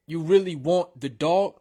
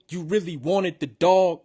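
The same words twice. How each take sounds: First: Said in the usual way. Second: "wanted" said in full, two syllables; extra syllable in wanted. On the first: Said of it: "instead of saying". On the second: Shown as a demonstration. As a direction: stretch "wanted" to fill the beat.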